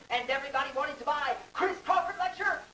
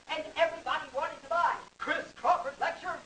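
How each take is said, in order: Both takes have the same delivery.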